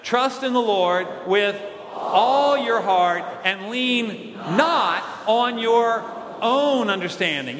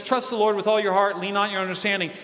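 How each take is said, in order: First: "all" and "not" drawn out and hit harder; slow recitation leaning hard on "all" and "not"; stress on "all" and "not". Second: Said in the usual way. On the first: Shown as a demonstration. Preacher leads congregation in reading the verse, stressing "all" and "not". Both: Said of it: "let's emphasize the word all and not".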